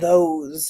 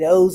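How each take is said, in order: First: The word begins with a th sound. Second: The word begins with a d-like sound. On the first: "instead of" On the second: "we might say"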